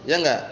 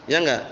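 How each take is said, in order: Both takes have the same delivery.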